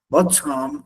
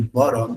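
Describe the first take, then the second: First: It is said with a British accent. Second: It is said with an American accent.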